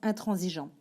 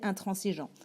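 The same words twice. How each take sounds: First: The middle consonant is a buzzing z sound. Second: The middle consonant is a hissing s sound. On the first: The speaker calls it right. "on prononce intransigeant" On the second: The speaker calls it wrong. "On devrait donc prononcer intransigeant. Et non"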